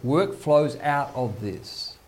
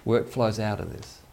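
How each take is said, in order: First: "Work flows out of this" said slowly, leaning hard on "Work"; slow emphatic stress. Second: Said in the usual way. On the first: Shown as a demonstration. Preacher driving home his point, slow with "Work" stressed. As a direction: hammer the word "Work", then let the line fall.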